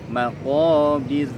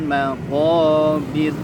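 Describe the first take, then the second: The two takes are said the same way.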